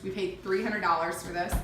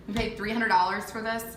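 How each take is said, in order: First: Said in the usual way. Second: "hundred" pressed a bit harder in the repeat; emphatic repeat. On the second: Shown as a demonstration. Wife repeating the vanity price, stressing "hundred". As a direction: land on "hundred" to make the price sink in. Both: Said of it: "Sorry, I just said".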